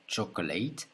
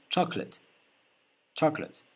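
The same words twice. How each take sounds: First: Chocolate ending in an A sound; the mistaken chocolate with A at the end; wrong ending. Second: Chocolate ending in an E sound, choc-let. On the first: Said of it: "on ne dit pas A". (chocolate, finale en A) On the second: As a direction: finish chocolate on a short E. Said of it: "C'est comme un E". (chocolate, finale en E) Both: Shown as a demonstration.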